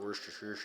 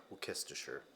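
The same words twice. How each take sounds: First: "Worcestershire" said the rejected way, like "wer-ster-shoo"; "Worcestershire" with a "wer" start and a swallowed ending. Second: "Worcestershire" said like "wil-kis-ter-sher", falling; British-style "Worcestershire" with every syllable, "wil-kis-ter-sher". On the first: Vlogger shows the wrong way to say it, "Worcestershire" as "wer-ster-shoo". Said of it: "the debate's been settled. It's not". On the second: Vlogger shows the right way to say it, "Worcestershire" as "wil-kis-ter-sher". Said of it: "It's not Worcestershire. It's, uh". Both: Shown as a demonstration.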